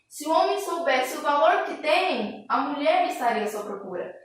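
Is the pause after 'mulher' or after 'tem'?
after tem. The pause comes after 'tem'.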